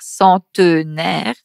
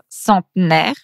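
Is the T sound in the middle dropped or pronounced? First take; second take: pronounced; dropped. First: The T sound before the N is pronounced. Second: The T sound before the N is dropped. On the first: This is the standard form of the word. "pour dire centenaire" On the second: This is how people from the Paris region say it. "on a tendance un peu à manger le T. Donc, par exemple, on va dire centenaire"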